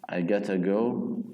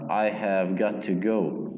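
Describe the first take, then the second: First: Have is dropped and got to becomes gotta. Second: Every word is said separately and in full.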